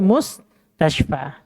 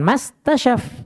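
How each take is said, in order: First: The word begins with 'mus' and ends 'tashfa'. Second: The word begins with 'mas' and ends 'tasyaf'. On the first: The speaker calls it right. "tapi mus tashfa" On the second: The speaker calls it wrong. "Bukan mas tasyaf"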